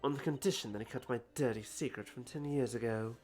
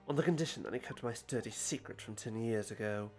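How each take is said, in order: First: It is read in the speaker's plain everyday voice. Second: It is read in a lower, stern British accent.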